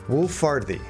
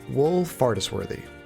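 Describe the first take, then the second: First: About half the syllables are dropped from the name. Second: Every written syllable of the name is pronounced. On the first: "I took about half the syllables and just threw them in the trash" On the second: "English Californian American [name] pronounces this as"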